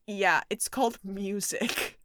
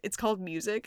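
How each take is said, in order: First: It is said with a little laugh. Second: It is said plainly, without a laugh.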